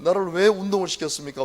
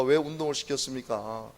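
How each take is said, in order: First: Louder, pleading 왜 at God; a pastor complaining to God about wrestling; plaintive complaint. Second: Said in the usual way. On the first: Retold or imitated. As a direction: demand why of God.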